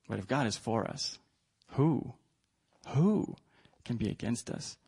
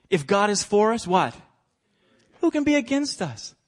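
First: Hushed. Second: Loud proclamation. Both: Acted. Preacher contrasts loud and hushed.

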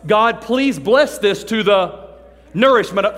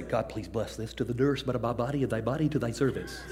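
First: Slow, loud, pompous grace; drawn-out holy-sounding blessing, louder; mock fancy prayer. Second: Low, soft, reverent grace with a laugh in it; hushed churchy blessing, half laughing; mock solemn prayer. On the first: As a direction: ham up a showy mealtime prayer. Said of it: "the nifty prayer you're gonna pray". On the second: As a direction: imitate an impressive grown-up prayer. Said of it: "you heard somebody say".

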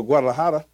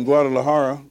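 First: Guadalajara with a tapped Spanish r; Mexican pronunciation. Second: Said in the usual way. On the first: Shown as a demonstration. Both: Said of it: "or as they say in Mexico".

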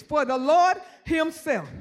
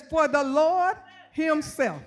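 First: Slow, deliberate scripture reading; even slower reading. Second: Slow, weighty scripture reading. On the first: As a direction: drag it out, word by word. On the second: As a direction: lay each word down slowly. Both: Shown as a demonstration. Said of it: "I gotta read it slow".

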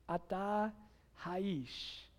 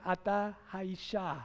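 First: "Ata haish", said softly and slowly in Hebrew, ending on "haish"; Hebrew for a man. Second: "Ata haisha", said slowly in Hebrew, ending on "haisha"; Hebrew for a woman. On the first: Pastor voicing God's words to a man, hushed Hebrew. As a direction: quietly sound out "Ata haish" with the masculine ending. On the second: Pastor giving the form for a woman, slow Hebrew. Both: Shown as a demonstration. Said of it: "Or if you're a woman".

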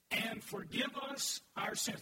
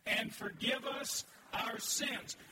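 First: Slow, deliberate unison reading; congregation reading. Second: Bolder unison reading. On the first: Pastor leads the church reading the verse slowly. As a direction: read it out together slowly. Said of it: "Read that with me". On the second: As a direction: read it again with more conviction. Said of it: "Read it, read it with me". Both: Shown as a demonstration.

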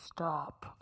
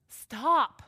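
First: Put-on manly voice, much lower; low, softer, hammed-up masculine command. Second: Louder, raised "stop"; firm stop. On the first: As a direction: drop way down for a mock man's "stop". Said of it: "That was my best manly voice". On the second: Acted. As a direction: call out a firm stop in the speaker's own register. Same word before manly take.

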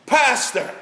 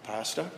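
First: A high, loud bellow down the phone. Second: Softer, low, questioning call of the name; bellowing stopped. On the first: Desperate caller bellows for the pastor at night, loud. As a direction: belt the name out like a man at noon. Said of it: "the voice bellows down the phone". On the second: Caller turns quiet and hesitant with the pastor. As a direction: drop the volume, ask it hesitantly. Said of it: "The bellowing had stopped, and the change in the tone". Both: Retold or imitated.

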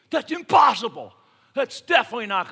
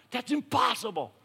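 First: Loud, high "impossible" flung out; shout. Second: "impossible" said with a higher, strained voice of disbelief; Philip's exasperated "impossible", in character; mock disbelief. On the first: Acted. Preacher voicing the congregation's doubt, loud shout. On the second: Philip to Jesus, a touch of exasperated disbelief. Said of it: "freaks out".

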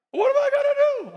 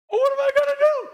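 First: Much higher, fast panicked squeal, now laughing at it; high comic panic again; mock panic. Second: Much higher, fast panicked squeal; high, rushed comic panic; mock panic. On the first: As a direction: repeat the frantic worrier's cry. Repeats the panicked cry. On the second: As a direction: play a frantic worrier throwing up their hands. Acting out panic in the fire.

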